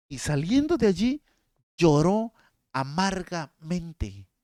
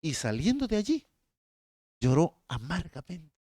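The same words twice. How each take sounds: First: Mournful, drawn out. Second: Said in the usual way. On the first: Shown as a demonstration. Preacher reading Peter's bitter weeping to congregation, mournfully. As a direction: stretch lloró amargamente out as if weeping. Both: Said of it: "Escucha esta".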